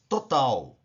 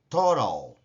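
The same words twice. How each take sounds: First: It is pronounced with Portuguese sounds. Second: It is pronounced with English sounds. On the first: "Em português" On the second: "Em inglês"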